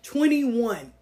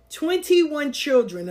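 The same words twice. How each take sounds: First: Said in the usual way. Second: "Twenty-one" drawn out slowly, higher and louder; "Twenty-one children" said slowly with weight on "Twenty-one"; slow emphasis. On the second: Shown as a demonstration. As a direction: lean hard on "Twenty-one" to stress the big number.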